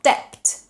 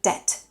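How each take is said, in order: First: "debt" with the b sounded, "deb-t"; pronounced B. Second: "debt" with no b, like "det"; English "debt", vowel straight into t; silent B. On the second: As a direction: leave the b out of "debt". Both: Shown as a demonstration. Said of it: "where the B is silent".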